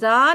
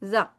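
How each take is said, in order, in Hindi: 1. स्वर लंबा खींचा गया है। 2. स्वर छोटा रखा गया है। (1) "बड़ा बड़ा आप जा कह रहे हैं, जा नहीं" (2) "जा छोटा सा"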